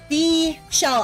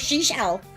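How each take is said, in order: First: The word is said slowly and carefully. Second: The word is said quickly and stumbles. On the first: The speaker calls it right. "I must say it slowly" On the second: The speaker calls it wrong. "because I go seashell"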